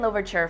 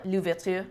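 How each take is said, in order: First: The name is said with an English accent. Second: The name is said with a French accent.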